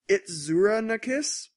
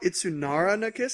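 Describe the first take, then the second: First: The first word is said with a 'zura' ending. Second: The first word is said with a 'nara' ending. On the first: The speaker calls it right. "It's like it's" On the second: The speaker calls it wrong. "I've been mispronouncing a uh, anime. It's not"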